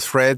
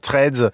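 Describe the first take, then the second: First: The name is said with an American accent. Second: The name is said with a French accent.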